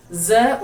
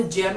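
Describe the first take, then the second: First: ज with z, tongue not stopping the air; buzzed z sound. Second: ज with a stopped j; hard j sound. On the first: Teacher contrasting two letters for learners, ज as buzzed "za". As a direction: say ज as a buzzing "za". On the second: Teacher contrasting two letters for learners, ज as hard "ja". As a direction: say ज as "ja", as in jeem. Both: Shown as a demonstration. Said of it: "ज और ज में रात दिन का अंतर है".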